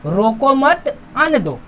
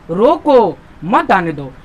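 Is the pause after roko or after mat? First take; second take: after mat; after roko. First: The pause comes after the word mat. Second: The pause comes after the word roko.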